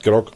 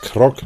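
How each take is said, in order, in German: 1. Der Name beginnt mit einem G-Laut. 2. Der Name beginnt mit einem K-Laut. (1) "nicht Grog"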